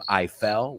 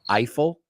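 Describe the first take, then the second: First: It sounds like the two words 'I fell'. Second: It sounds like the name Eiffel. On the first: The speaker calls it wrong. "we don't pronounce his name I fell" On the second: The speaker calls it right. "We pronounce it Eiffel"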